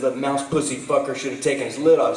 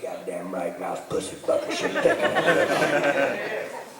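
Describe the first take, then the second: First: Said in the usual way. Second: Granddaddy agreeing. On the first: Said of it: "I said". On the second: Retold or imitated. Granddaddy backing up his cussing grandson, slow retold approval. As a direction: echo it slowly as the approving old man, breaking into laughter. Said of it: "He's like".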